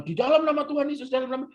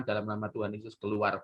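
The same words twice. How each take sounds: First: High, rapid mock incantation; showy exorcist. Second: Low, soft, quick command; understated, no show at all; quiet exorcist. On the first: Preacher parodies minister battling demon, showy exorcism. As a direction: show off your power as you cast it out. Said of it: "kelihatan sakti". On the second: Retold or imitated. Minister just lays on hands, quiet exorcism. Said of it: "orang yang diem".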